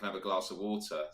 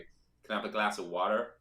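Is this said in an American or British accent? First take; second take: British; American. First: It is said in a British accent. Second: It is said in an American accent. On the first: "they don't know what I'm on about" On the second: "I have to widen the vowel"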